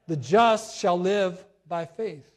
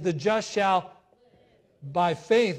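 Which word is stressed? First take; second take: just; live. First: The word just carries the strongest stress. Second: The word live carries the strongest stress. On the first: The focus is on who is approved. "the emphasis was put on the word just" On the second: The focus is on the just truly living. "that was the emphasis of live"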